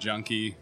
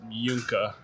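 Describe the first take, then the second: First: It has an English J and ends in ee. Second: It starts with a Y sound and ends in uh. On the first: This is the everyday form used with most people. "Most of the time" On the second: This is the original form of the family name. "if you're familiar with German pronunciation"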